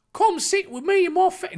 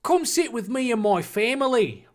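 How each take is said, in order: First: Mock Cockney. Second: Mock Australian. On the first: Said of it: "this is now Cockney". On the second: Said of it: "uh, Australia?".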